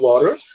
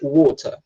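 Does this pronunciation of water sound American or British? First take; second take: American; British. First: It is said with an American accent. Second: It is said with a British accent.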